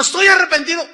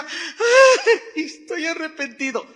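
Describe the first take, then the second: First: Lamento imitado, más alto y fuerte; arrepentimiento fingido. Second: Lamento burlón, agudo y exagerado; llanto fingido. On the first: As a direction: exagera la pena falsa. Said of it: "Lloró y dijo". (imitando al hombre descubierto, pena exagerada) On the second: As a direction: finge llorar medio riéndose. (imitando al descubierto que finge llorar) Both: Retold or imitated.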